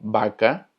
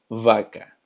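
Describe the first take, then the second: First: The first consonant is a soft B-like sound. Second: The first consonant is a strong buzzing V. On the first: This is how Spanish speakers say it. "nosotros lo pronunciamos como vaca" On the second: This is how Portuguese speakers say it. "en portugués se pronuncia vaca"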